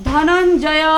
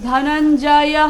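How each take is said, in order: Both takes have the same delivery.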